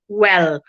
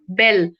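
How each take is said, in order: First: The word begins with a w sound. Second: The word begins with a b sound. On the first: The speaker calls it right. "W E L L, well" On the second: The speaker calls it wrong. "for w sound, people say bell"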